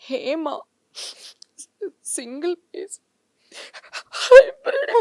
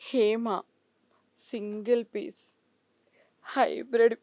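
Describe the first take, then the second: First: It is said in a crying, tearful voice. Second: It is said in a shy, bashful tone. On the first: "ఏడుపుతో" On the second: "సిగ్గుపడుతూ"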